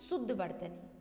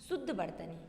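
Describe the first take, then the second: The two takes are said the same way.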